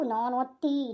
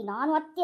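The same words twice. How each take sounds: First: Haughty mother-in-law. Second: Questioning mother-in-law. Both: Shown as a demonstration. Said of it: "ಅತ್ತಿ ಗಮ್ಮತ್ತು ತೋರಿಸ್ತಾ ಇರ್ಬೇಕು".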